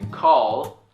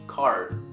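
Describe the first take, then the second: First: The word ends with a clear L sound. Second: The word ends with an R-like sound. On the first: The speaker calls it right. "this word correctly. Call" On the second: The speaker calls it wrong. "A lot of Korean people would pronounce it as car"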